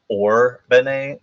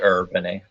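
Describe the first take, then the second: First: The first syllable sounds like 'or'. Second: The first syllable sounds like 'er'. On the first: This is how the narrator says it. "the way his pronunciation, it sounds like it's or Bene" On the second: This is how the spelling could be read. "with a U er"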